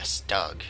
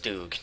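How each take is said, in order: First: The word is said in an anglicized way. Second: The word is said in a German-like way. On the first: English speakers mangle the word this way. The speaker calls it wrong. "Stug sounds more like a really butchered, like more of a English" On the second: This is how the word should be said. The speaker calls it right. "I think it's pronounced Stoog"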